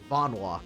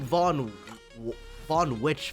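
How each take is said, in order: First: The name ends with a 'walk' sound. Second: The name ends with a 'witch' sound. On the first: The speaker calls it right. "That's how you pronounce that?" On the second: The speaker calls it wrong. "I've said like Von Von Witch for some reason whenever I see this word"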